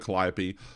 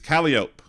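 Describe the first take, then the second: First: It is said with the standard pronunciation. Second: It is said with a local pronunciation. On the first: This names the musical instrument on the boat. "they call it a calliope" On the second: This names the street. "but the street's Calliope"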